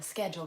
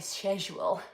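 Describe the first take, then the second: First: The word is said in a non-British accent. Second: The word is said in a British accent. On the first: "I am more of a schedule gal" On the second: "the British say schedule"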